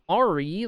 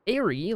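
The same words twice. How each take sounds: First: It begins with an 'ar' sound, as in pirate. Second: It begins with an 'air' sound, as in airplane. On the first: "like pirate" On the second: "like airplane"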